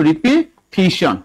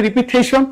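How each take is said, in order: First: রিপিটিশন said slowly with a clear "ti" in the third syllable; correct pronunciation. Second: রিপিটেশন with "te" in place of "ti", the way people usually say it; common wrong pronunciation. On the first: Teacher showing students the right sound: slow, careful রিপিটিশন with "ti". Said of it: "আর উচ্চারণ হচ্ছে রিপিটিশন". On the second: Teacher imitating the students' mistake: রিপিটেশন with "te". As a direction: say রিপিটেশন the everyday way, ri-pi-te-shon. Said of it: "ভুল উচ্চারণ করি". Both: Shown as a demonstration.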